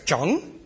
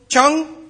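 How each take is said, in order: First: The word is said with a rising tone. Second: The word is said on a high level tone. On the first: "es geht aufwärts" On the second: "ist ein hoher Ton"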